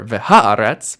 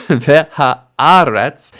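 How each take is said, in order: First: Ve-HA-aretz, punch the "ha"; wrong article stress. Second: Ve-ha-AH-retz, slow, loud, deliberate; stress on the stem. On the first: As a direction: vehaaretz with the beat on "ha". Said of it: "or vehaaretz". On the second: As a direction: separate ve, ha, then punch "AR" in vehaaretz. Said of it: "That's where the stress is going to stay". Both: Shown as a demonstration.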